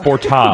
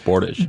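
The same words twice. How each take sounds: First: It is said the fancy, foreign-sounding way. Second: It is said the plain, ordinary way. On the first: It suits an upscale setting. "If you're at Cindy's rooftop" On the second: It suits an everyday setting. "If you're here"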